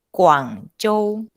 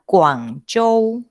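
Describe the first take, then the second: The two takes are said the same way.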